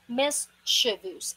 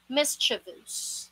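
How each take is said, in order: First: It ends with a short 'vus' syllable. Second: The same.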